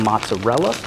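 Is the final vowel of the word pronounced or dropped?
pronounced. The word ends with its final vowel.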